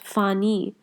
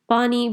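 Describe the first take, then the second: First: It begins with an f sound. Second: It begins with a p sound.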